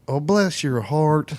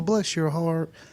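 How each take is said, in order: First: It sounds pitying and condescending. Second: It sounds warm and sincerely grateful.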